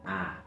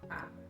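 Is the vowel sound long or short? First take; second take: long; short. First: The vowel is long and clearly held. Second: The vowel is short and brief. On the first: The sound comes from a stressed syllable. "Cuando este sonido se encuentra en una sílaba acentuada, lo escucharemos con claridad" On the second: The sound comes from an unstressed syllable. "Si en cambio se encuentra en una sílaba no acentuada, el sonido será más corto"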